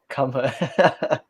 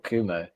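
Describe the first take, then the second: First: The second syllable starts with an h sound. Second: The second syllable starts without an h sound. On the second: "I think it's Kumo, but it's spelled Come Ho"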